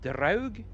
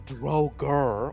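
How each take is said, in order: First: The name ends without any r sound. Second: The name ends with an added r sound. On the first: The speaker calls it right. "It is Draug" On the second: The speaker calls it wrong. "they add a R behind everything"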